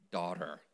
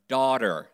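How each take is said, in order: First: Much softer, lower and gentle; tender. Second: Said in the usual way. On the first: Shown as a demonstration. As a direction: say it softly like a loving father. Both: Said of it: "say that with me".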